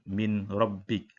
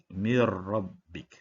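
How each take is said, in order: First: The n is sounded clearly before the r. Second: The n merges into the r without nasalization. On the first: The speaker calls it wrong. "tidak boleh baca Min Rabbik" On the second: The speaker calls it right. "kita memasukkan di dalam huruf nun kepada huruf ra, Mir. Dan tanpa dengung"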